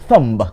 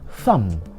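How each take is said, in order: First: The final b is pronounced. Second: The final b is silent. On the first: The speaker calls it wrong. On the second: The speaker calls it right. "the B becomes silent"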